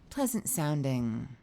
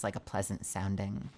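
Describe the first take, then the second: First: Slow, lightly smoothed pleasant tone; a mild imitation of a soothing alien voice. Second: Said in the usual way. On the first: Shown as a demonstration. Streamer mimics the game's pleasant voice, slow.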